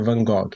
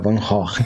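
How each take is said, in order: First: The G sounds are hard, like in go. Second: The G sounds are raspy sounds from the throat. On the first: The speaker calls it wrong. "pra gente que sempre tá acostumado a falar" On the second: The speaker calls it right. "o G aqui tem som de R"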